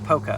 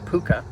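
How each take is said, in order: First: The first vowel sounds like the vowel in 'poke'. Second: The first vowel sounds like the vowel in 'pool'. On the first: "I call it poca because if you get too close, it will poke you" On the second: "P O O K A"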